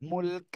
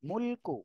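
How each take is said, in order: First: The word ends on a bare k consonant. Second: The word ends with a short u vowel.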